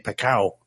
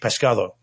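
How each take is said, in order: First: It is said Andalusian style, dropping consonants. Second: It is said with full Castilian consonants.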